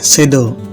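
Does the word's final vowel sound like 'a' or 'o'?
o. The final vowel sounds like a rounded o.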